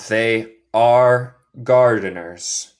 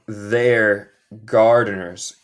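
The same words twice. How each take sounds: First: Slow "They are gardeners", THEY and ARE as separate words; uncontracted written form. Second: Slow "They're gardeners", THEY'RE blended into one syllable; spoken contraction. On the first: Teacher shows students how it is written, separated THEY ARE. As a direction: give ARE its own full beat. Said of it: "Esto es como escribo". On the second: Teacher shows students how she speaks, contracted THEY'RE. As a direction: run they and are together in "They're". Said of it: "Esto es como yo hablo". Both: Shown as a demonstration.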